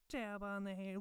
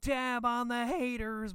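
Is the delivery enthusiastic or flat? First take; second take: flat; enthusiastic. First: It is said flat, with little energy. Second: It is said with lively, enthusiastic energy. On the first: The speaker calls it wrong. "he half-asses the voice" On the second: The speaker calls it right. "I'd like to think it would have more enthusiasm"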